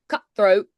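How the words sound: The middle T is soft and glottalized. "with Irish, it's softer, sometimes glottalized, like cutthroat"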